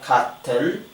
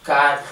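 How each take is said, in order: First: The t is fully released and clearly heard. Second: The t is cut off in the throat. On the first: The speaker calls it wrong. "not cotton" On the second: The speaker calls it right. "so we say"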